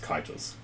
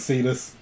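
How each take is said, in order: First: The name begins with a hard K sound. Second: The name begins with a soft S sound. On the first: This is the original, proper pronunciation. "is actually supposed to be pronounced Kitus" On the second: This is the casual pronunciation the group uses. "Don't worry about it. It's Cetus"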